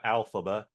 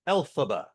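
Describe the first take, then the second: First: The name begins with an 'al' sound. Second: The name begins with an 'el' sound. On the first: The speaker calls it wrong. "not an A L" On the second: The speaker calls it right. "Elphaba with an E L"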